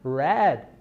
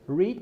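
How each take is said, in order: First: It is pronounced as the past-tense form. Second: It is pronounced as the present-tense form. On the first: The action happened in the past. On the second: The action happens now or habitually.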